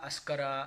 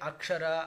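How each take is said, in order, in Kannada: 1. ಮಧ್ಯದ ಗುಂಪನ್ನು sk ಎಂದು ಉಚ್ಚರಿಸಲಾಗುತ್ತದೆ. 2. ಮಧ್ಯದ ಗುಂಪನ್ನು ksh ಎಂದು ಉಚ್ಚರಿಸಲಾಗುತ್ತದೆ.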